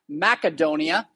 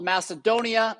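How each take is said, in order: First: The name is said in an older pronunciation. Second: The name is said in the current pronunciation.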